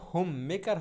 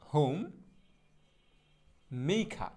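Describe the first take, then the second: First: Said in the usual way. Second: হোম, pause, মেইখা with aspirated "kha" and no r; slow model pronunciation. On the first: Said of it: "হোম মেকার হবে না". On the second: Shown as a demonstration. Teacher modelling homemaker for learners, হোম মেইখা in slow parts. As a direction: separate হোম and মেইখা, glide "mei", open আ ending. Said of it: "শুদ্ধ উচ্চারণটা হবে এইরকম".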